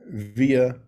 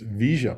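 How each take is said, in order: First: The double L sounds like a y. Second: The double L sounds like sh.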